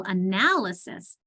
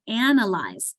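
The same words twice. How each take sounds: First: "analysis" slowly as uh-NAL-uh-sis; stress on AL. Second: "analyze" as AN-uh-lyze, AN punched; stress on first syllable. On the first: Teacher contrasting with analyze, "analysis" stressed on NAL. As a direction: punch the "nal" in "analysis", taking it slow. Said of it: "putting more emphasis on the al". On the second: Teacher showing accent on first syllable, "analyze" as AN-uh-lyze. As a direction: hit the opening "an" of "analyze". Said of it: "my accent is on the first syllable". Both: Shown as a demonstration.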